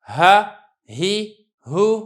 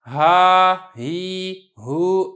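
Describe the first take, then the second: First: The vowels are kept short. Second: The vowels are drawn out long. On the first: The speaker calls it right. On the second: The speaker calls it wrong.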